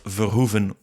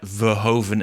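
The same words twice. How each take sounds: First: The name is pronounced the Dutch way. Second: The name is pronounced the American way. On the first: It is how people at home say it. "which is the way we pronounce it" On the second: It nods to his fame in America. "a nod to his American career"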